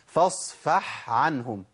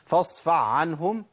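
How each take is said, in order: First: The first word ends in a clear ha sound. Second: The first word ends in an ayn sound. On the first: The speaker calls it right. "اسمع كده، فاصفح عنهم، ده الصح" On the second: The speaker calls it wrong. "انا كده ابدلت الحق بعين على طول"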